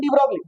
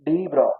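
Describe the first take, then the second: First: The name ends with a pronounced 'glee' syllable. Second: The name ends on 'bro' with no 'glee' syllable. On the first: The speaker calls it wrong. "American डी ब्रोगली हम लोग पढ़ेंगे" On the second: The speaker calls it right. "लेकिन एक्चुअल में क्या है? डी ब्रो"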